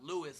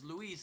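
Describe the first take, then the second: First: The name is pronounced the English way. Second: The name is pronounced the Spanish way. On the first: "not Louis like we say it" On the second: "in Spanish, Luis is Luis"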